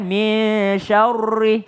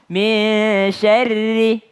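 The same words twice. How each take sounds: First: SYARRI rounded and heavy, like "syaurri"; wrong thick ri. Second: SYARRI with a light, thin R and long-held MIN. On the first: Teacher showing wrong syarri, heavy rounded R. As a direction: thicken the R of SYARRI with an O-coloured vowel. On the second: Teacher correcting students' syarri, thin R. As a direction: keep the RI of SYARRI thin, not rounded. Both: Shown as a demonstration.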